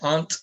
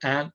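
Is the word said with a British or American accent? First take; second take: British; American. First: It is said with a British accent. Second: It is said with an American accent.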